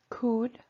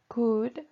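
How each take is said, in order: No difference in how they are said.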